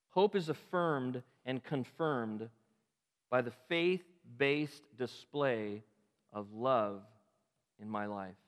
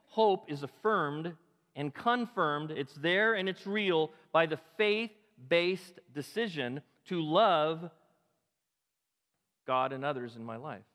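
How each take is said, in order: First: Slow, measured phrasing with "Hope" set apart; slow first statement. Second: Slow and louder, punching "Hope" and "there"; emphatic repeat. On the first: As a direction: lay out "Hope is affirmed and confirmed" slowly, word by word. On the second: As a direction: drive it home the second time, "Hope is affirmed and confirmed" with weight. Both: Shown as a demonstration. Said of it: "let me say that again".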